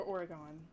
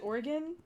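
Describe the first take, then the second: First: "Oregon" as OR-uh-gahn; Oregon ending in -gone. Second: "Oregon" as OR-uh-gun; short, unstressed "gun" ending on "Oregon". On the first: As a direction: say "Oregon" with a full "ah" in the last syllable. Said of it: "I feel the need to call it Oregon". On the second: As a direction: say "Oregon" with a reduced last vowel. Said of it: "once and for all. Is it Oregon or Oregon". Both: Shown as a demonstration.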